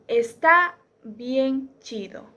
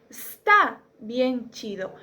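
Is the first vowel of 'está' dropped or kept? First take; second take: kept; dropped. First: The first vowel of 'está' is kept. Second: The first vowel of 'está' is dropped. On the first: "en la primera se utiliza la palabra completa" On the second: "en la segunda se elimina la vocal"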